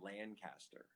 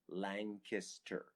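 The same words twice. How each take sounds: First: The middle syllable does not sound like 'kiss'. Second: The middle syllable sounds like the word 'kiss'. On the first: The speaker calls it wrong. "all y'all were saying Lancaster wrong. I heard people saying Lancaster" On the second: The speaker calls it right. "You say it like a kiss. It's got a kiss in it"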